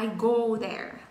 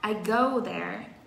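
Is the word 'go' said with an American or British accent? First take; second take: American; British. First: The vowel in 'go' sounds American. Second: The vowel in 'go' sounds British. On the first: "Còn Mỹ thì nó nói là" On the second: "anh thì nó đọc là"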